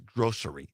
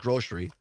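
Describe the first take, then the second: First: The middle sound is a plain 's'. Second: The middle sound is 'sh', Southwest Wisconsin style.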